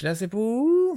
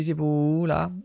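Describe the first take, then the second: First: High mock question from the woman on the phone; a light imitation of the confused caller; imitating her question. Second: Said in the usual way. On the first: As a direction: ask it the way she asked it, pitched way up. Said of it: "Non, j'ai pas pris d'accent". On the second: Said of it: "j'ai dit".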